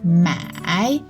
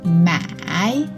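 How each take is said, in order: First: The syllable is said with the third tone. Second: The syllable is said with the third tone.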